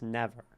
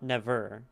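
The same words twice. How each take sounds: First: The stress is on the first syllable. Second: The stress is on the second syllable. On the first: The speaker calls it right. "Never is trochaic" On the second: The speaker calls it wrong. "It's not never"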